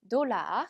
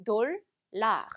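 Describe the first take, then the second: First: Said in the usual way. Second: "돌라" broken into dol, then lar; French "돌라" with a pause between syllables; split French pronunciation. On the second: Shown as a demonstration. ("돌라"를 돌, 라로 끊어서) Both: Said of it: "돌라 이렇게 읽어주시면".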